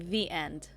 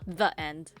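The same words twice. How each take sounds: First: 'The' has a long 'ee' vowel. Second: 'The' has a short 'uh' vowel. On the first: "the only time I ever heard myself say the was when I say the end" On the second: "not the end"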